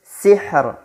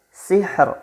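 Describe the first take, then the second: The two takes are said the same way.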